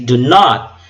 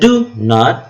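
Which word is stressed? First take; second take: not; do. First: The stress is on the word not. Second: The stress is on the word do. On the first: The speaker calls it right. "but you say do not. So not is stressed" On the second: The speaker calls it wrong. "you do not say do not"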